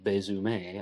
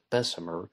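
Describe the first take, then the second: First: The surname is said with a French-style pronunciation. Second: The surname is said with an English-style pronunciation. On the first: "some people pronounce his name Louis Bezume, again because of the French influence" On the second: "most people ... pronounce it Bessemer"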